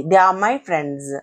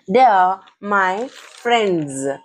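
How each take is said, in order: First: Said in the usual way. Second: "They are... my... friends", very slow and spaced; slow pronunciation model. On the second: Shown as a demonstration. Teacher modelling the sentence for learners, slow and deliberate. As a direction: draw out "friends" to a voiced z ending. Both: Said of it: "friends అని పలకాలి".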